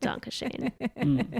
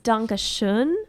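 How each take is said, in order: First: The word has Americanized vowels, like 'shane' at the end. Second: The word has the standard German vowels. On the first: The speaker calls it wrong. "why that song says Dankashane" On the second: The speaker calls it right. "it's Dankeschön"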